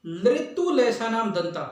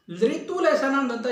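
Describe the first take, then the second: First: Teacher reciting slowly; slow recitation of the rule. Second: Said in the usual way. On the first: Shown as a demonstration. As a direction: recite लृतु लेसा नाम दंता slowly, each word clear. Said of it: "अगली बात करते हैं हम". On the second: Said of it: "तो ये सूत्र है".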